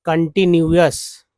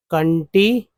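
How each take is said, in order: First: कंटिन्यूअस slow and loud, each part कन and अस clear; teacher stresses every part of कंटिन्यूअस; careful slow model. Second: कंटिन्यूअस at normal speed, rising at the end; teacher runs कंटिन्यूअस together; quick repeat. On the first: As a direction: drill कंटिन्यूअस slowly and firmly. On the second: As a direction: repeat कंटिन्यूअस lightly, as a check. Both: Shown as a demonstration. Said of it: "तो कन भी तो है और अस भी तो है".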